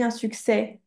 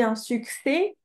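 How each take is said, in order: First: "succès" ending in an open è, "suk-sè". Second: "succès" ending in a closed é, "suk-sé", rising. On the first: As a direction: offer "succès" with an open "eh" at the end. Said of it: "ou est-ce qu'on dit". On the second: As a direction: offer "succès" as "suksé", pitched up as a choice. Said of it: "Est-ce qu'on dit". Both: Shown as a demonstration.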